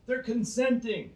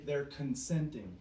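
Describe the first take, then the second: First: "They're consenting" repeated higher and louder; mocking emphasis. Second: Said in the usual way. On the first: Shown as a demonstration. Preacher echoing the world's excuse, higher mocking emphasis. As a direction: throw "They're consenting" back with scorn.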